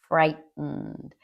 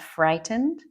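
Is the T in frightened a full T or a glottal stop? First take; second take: glottal stop; full T. First: The middle t is a glottal stop. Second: The middle t is clearly pronounced. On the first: "native speakers will commonly say frightened" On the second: "You will hear it said like that"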